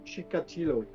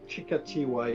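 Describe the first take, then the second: First: The name ends with a clear 'lo' sound. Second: The name ends with a 'wa' sound.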